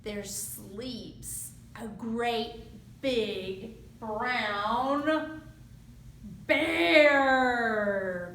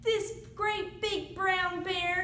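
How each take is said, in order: First: "great big brown bear" stretched slow, "bear" landing loud; drawn-out big brown bear. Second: Said in the usual way. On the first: A narrator's reading.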